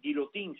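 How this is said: The name is said with a Spanish pronunciation. The speaker calls it wrong. "en este caso no sería guillotín"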